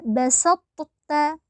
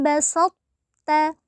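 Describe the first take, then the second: First: Both t sounds are pronounced separately. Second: The first t sound merges into the second. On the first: The speaker calls it wrong. "Jadi tidak dibaca basatta" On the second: The speaker calls it right. "cara membacanya adalah la im basatta"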